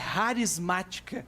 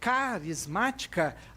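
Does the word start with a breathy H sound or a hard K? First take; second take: breathy H; hard K. First: The word begins with a breathy, raspy H sound. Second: The word begins with a hard K sound. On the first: "o C H tem um som de R" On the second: "ao invés de a gente falar carismática"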